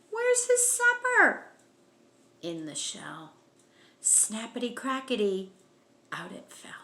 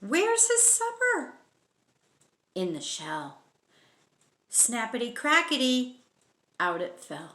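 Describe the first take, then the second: No difference in how they are said.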